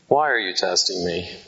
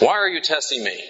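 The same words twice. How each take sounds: First: It is said in a loving, gentle tone. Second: It is said in an angry, exasperated tone.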